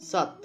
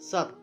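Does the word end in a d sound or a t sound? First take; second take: t sound; t sound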